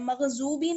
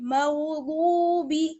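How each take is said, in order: First: The middle consonant sounds like a z. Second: The middle consonant sounds like a heavy d. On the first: The speaker calls it wrong. "ज़्वाद नहीं पढ़ना है, मगजूबी नहीं पढ़ना है" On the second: The speaker calls it right. "बल्कि मगदूबी"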